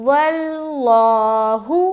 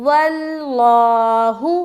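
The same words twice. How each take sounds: No difference in how they are said.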